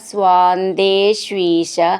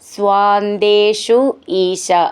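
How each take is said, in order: First: The two words are joined into one. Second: The two words are said separately.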